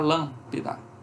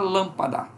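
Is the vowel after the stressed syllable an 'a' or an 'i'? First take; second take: i; a. First: The vowel after the stress is a reduced 'i'. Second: The vowel after the stress is a full 'a'. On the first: "ela se transforma num Izinho, fica lâmpida" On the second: "é difícil falar lâmpada"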